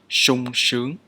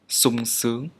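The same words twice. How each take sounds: First: The first consonant is an 'sh' sound. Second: The first consonant is an 's' sound. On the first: This is the standard pronunciation. "This sounds exactly like shoe or shop in English" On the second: This is how people normally say it in the dialects. "both the southern and northern Vietnamese pronounce the letter sh like the letter s"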